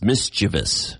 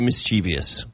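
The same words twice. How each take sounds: First: It is said with three syllables. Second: It is said with four syllables. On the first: The speaker calls it right. "there's no I after the V. It's mischievous" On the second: The speaker calls it wrong. "But I always say mischievous"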